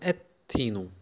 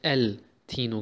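First: The L is silent and the T is doubled. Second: The L is pronounced before a single T. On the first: The speaker calls it right. "Hier haben wir den L nicht ausgesprochen. ... Und haben den T verdoppelt" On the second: The speaker calls it wrong. "Wir haben nicht El Tino gesagt"

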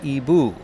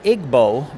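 First: It is pronounced the way native speakers say it. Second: It is pronounced as the spelling suggests. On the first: "but they pronounce it Igbo" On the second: "to me, sounds like Igbo"

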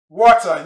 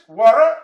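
First: The word is said in a British accent. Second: The word is said in an American accent. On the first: "Water in English, British English" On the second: "Water in USA English"

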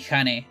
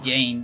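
First: The name starts with a breathy H sound. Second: The name starts with an English J sound. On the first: "Because that's how you would pronounce it exactly in Spanish" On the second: "don't call me Jane"

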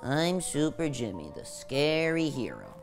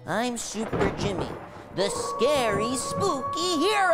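First: It is said flatly, without enthusiasm. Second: It is said forcefully, with real enthusiasm.

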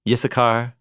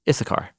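First: The name is pronounced the Hebrew way. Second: The name is pronounced the English way.

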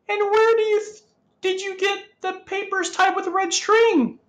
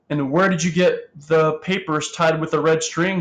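First: The voice is high and shrill. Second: The voice is at a normal pitch.

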